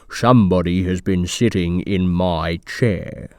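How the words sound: It is said in a rough, gruff voice.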